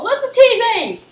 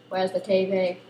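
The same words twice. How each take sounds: First: High, loud call: where's the T V?; loud excited question. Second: Said in the usual way. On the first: Real, not acted. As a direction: shout it out high.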